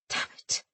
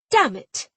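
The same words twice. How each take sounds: First: Unvoiced, hissed under breath; a whispered damn it; hissed curse. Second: Loud, high, falling damn it; a furious shouted damn it; shouted curse. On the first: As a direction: spit it through the teeth. Frustrated captain watches escape. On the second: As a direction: belt the curse out. Captain curses at the damage. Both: A narrator's reading.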